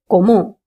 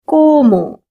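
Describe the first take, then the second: First: The stress is on the second syllable. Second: The stress is on the first syllable. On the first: "If there was a line on the second O, then we would have said something like como" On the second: "we have to stress on that vowel. So we have to say como"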